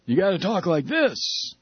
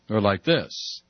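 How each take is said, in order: First: Higher, put-on careful voice; demonstrated speaking voice. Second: Dropped, low put-on voice; lower demonstrated voice. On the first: Coaching Howard how to talk, put-on higher voice. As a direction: pitch it up a little, put-on. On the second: Offering Howard another way to talk, lower. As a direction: drop the pitch well down. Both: Shown as a demonstration.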